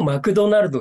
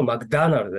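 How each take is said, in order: First: マクドナルド in even katakana syllables with "do"; evenly timed Japanese マクドナルド; Japanese pronunciation. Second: マクダナルド with stressed "DA" in the middle; English-style マクダナルド, "da" replacing "do"; English pronunciation. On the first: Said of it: "日本だとマクドナルドですけども". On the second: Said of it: "英語発音だとマクダナルドです". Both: Shown as a demonstration.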